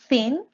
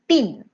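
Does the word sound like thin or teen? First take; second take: thin; teen. First: The word sounds like thin. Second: The word sounds like teen. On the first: The speaker calls it wrong. "you said thin as well" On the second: The speaker calls it right. "but it's teen"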